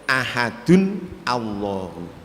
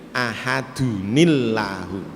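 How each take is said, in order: First: The two words are separate, with 'a' after 'ahadun'. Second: The words are joined by an 'i' after 'ahadun'.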